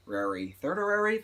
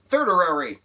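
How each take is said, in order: First: Slow, doubtful rising thirdary; questioning. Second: Loud, high "Thirdary!" declared proudly; defiant exclaim. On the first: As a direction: test "thirdary?" slowly, unsure it's a word. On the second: Vlogger insisting on her made-up word, loud and triumphant. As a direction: shout "Thirdary!" as if it's real now. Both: Shown as a demonstration. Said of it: "That's not a word".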